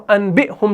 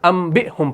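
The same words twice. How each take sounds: First: انبئہم said "an-bi-hum" with N; انبئہم as spelt, n before b; original noon form. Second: انبئہم with lips closed on m; changed to meem. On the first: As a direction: keep the written N in انبئہم. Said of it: "اصلی حقیقت کو بدل دیتے ہیں". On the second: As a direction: turn the N of انبئہم into M. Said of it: "انبئہم پڑھتے ہیں". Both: Shown as a demonstration.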